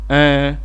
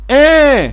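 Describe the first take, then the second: First: Short, soft and oral, air through the mouth. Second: Long, forceful and nasal, air through the nose. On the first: It means yes. "sans prolonger le son, sans force et en utilisant la sortie d'air par la bouche" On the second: It means no. "en prolongeant le son souligné, en nasien et avec force"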